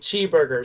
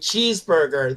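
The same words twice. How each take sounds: First: The word is pronounced in a distorted way. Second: The word is pronounced in the standard way. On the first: "they were saying cheeseburger" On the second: "instead of saying cheeseburger"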